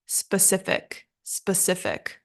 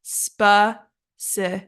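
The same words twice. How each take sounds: First: Said in the usual way. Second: "specific" broken slowly into spe, ci, fic; careful slow "specific", a gap after each syllable. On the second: Shown as a demonstration. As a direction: say "specific" in three separate slow beats. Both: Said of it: "the correct pronunciation is".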